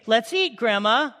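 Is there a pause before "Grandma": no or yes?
no. There is no pause before Grandma.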